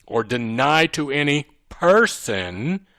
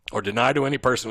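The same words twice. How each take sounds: First: Slow build to a drawn-out person; stress on person. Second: Said in the usual way. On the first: Shown as a demonstration. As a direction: punch the word person, syllable by syllable. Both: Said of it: "the reason I emphasize the word".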